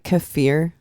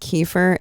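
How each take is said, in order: First: The name is said as 'Kefir'. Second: The name is said as 'Kiefer'. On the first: This is the name's real pronunciation. The speaker calls it right. "is actually Kefir" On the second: This is how most people say it. The speaker calls it wrong. "what everyone pronounces as Kiefer"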